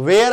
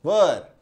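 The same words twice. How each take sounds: First: "वेयर" as vay-er, wrong for were; mispronounced were, "वेयर" like where; blunder pronunciation. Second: "वर" said low, with a short vur vowel; English were pronounced "वर"; correct pronunciation. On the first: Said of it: "वेयर अगर आप बोल रहे हैं तो blunder कर रहे हैं". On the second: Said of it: "वेयर अगर आप बोल रहे हैं तो blunder". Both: Shown as a demonstration.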